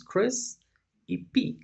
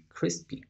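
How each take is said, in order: First: Crisp and P said as separate parts; wrong split. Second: Crispy said higher, unvoiced, as one word; whole word crispy. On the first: Teacher showing how Spanish logic would wrongly split crispy. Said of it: "si seguimos la lógica del español". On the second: Teacher contrasting crispy with the wrong split. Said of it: "no funciona de esa manera". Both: Shown as a demonstration.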